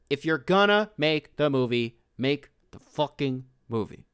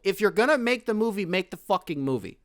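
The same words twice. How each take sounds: First: "make the fucking movie" spaced out with pauses; emphatic word-by-word insistence. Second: High, heated demand in one run; worked-up, high-pitched insistence; exasperated rant. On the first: Rant catchphrase, broken up for emphasis. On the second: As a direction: fire it out higher, as an exasperated complaint. Heated rant, repeats catchphrase. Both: Real, not acted.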